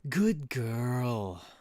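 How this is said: It sounds like praising a pet dog. It is said as praise to a pet. The speaker calls it wrong. "it still sounds like I'm talking to a dog"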